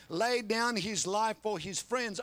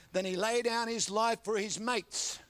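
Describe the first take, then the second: First: "Lay down his life" drawn out slowly, each word leaned on; slow stress on lay down. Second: Said in the usual way. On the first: Shown as a demonstration.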